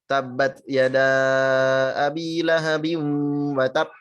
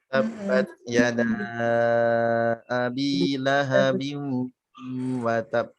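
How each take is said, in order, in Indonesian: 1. Bacaan cepat dengan jeda panjang. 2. Bacaan lambat dengan jeda pendek. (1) "jedanya kelamaan" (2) "bacanya lambat, ... jedanya itu kecepatan"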